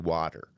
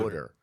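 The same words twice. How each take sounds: First: It is said in a general American accent. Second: It is said in a Philadelphia accent. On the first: This is how people elsewhere say it. "I do not say water" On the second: This is how the speaker actually says it. "It is fucking water"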